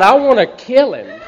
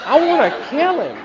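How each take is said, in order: First: Loud, high angry shout with a laugh in it; laughing angry yell; furious. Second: Even higher laughing shout; furious, higher. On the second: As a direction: push the pitch up further, half laughing. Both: Retold or imitated. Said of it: "I'm so mad".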